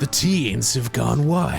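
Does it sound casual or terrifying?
terrifying. It is said in a terrifying, ominous tone.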